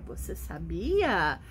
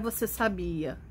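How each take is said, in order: First: It is said with a questioning tune. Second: It is said flat, like a statement.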